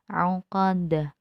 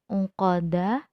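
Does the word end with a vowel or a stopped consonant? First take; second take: consonant; vowel. First: The word ends on a stopped consonant. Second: The word ends with an a vowel. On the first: "tetapi dimatikan menjadi uqad" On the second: "seolah-olah uqada"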